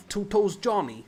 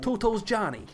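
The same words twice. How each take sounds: First: Higher, louder mock New York mobster voice; New York accent. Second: Much higher, louder mock New York mobster; New York accent. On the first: Host imitating a New York accent from a podcast episode. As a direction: quote the gangster nickname like a Brooklyn wiseguy. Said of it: "That's the accent you're trying to do". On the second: Host repeating the gangster nickname in a New York accent. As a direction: punch out the nickname like a cartoon gangster. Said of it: "that's the New York accent".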